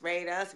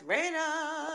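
First: Said in the usual way. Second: High sing-song. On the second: Acted. Repeated plea, high and soft.

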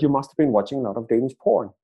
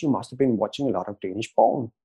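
First: "porn" as the plain English word, r sounded; quicker line, landing on an unmistakable English "porn"; misheard as porn. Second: "porn" as the Danes say Borgen, with no clear r; Danish pronunciation. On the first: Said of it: "Phil and the rest of the crew heard". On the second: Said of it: "which is how we pronounce it". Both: Retold or imitated.

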